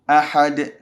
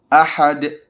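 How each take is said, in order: The two takes are said the same way.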